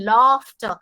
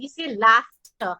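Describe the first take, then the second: First: "laughter" with the long British ah, said slowly; "laughter" in Queen's English, broad long ah. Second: "laughter" with a flat American a, said slowly; "laughter" in the US way, open short a, unhurried. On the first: Teacher contrasting the British "laughter" with the US one. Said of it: "we don't say laughter". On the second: Teacher demonstrating the American "laughter" to singers. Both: Shown as a demonstration.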